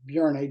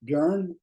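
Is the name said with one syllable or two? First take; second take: two syllables; one syllable. First: The name is said as two syllables. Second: The name is said as one syllable. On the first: This is the pronunciation the speaker chooses. "but I'm pronouncing it Björni" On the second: This is how some other people say the name. "I've heard some people pronounce it Björn"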